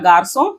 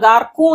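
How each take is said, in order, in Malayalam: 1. നടുവിലെ വ്യഞ്ജനം മൃദുവായ S ശബ്ദമാണ്. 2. നടുവിലെ വ്യഞ്ജനം കഠിനമായ K ശബ്ദമാണ്. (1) "സോ എന്നാണ്" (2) "ഗാർക്കൂ എന്നല്ല ഞാൻ പറയുന്നത്"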